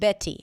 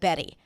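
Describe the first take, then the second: First: The middle t is a full, crisp t. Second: The middle t is a quick flap. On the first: "if you pronounce it like a true T, like a T sound" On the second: "instead of"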